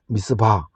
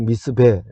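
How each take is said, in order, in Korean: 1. 이름은 'ba' 소리로 끝납니다. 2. 이름은 'be' 소리로 끝납니다. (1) "이쪽에서는" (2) "아람 쪽에서 부를 때"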